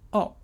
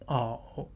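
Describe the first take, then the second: First: The tone falls sharply from high. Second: The tone dips low, then rises.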